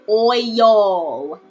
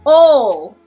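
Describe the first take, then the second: First: The word is pronounced with careful, elaborate effort. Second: The word is pronounced in a relaxed, simple way. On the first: Someone else says it this way. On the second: The speaker says it this way.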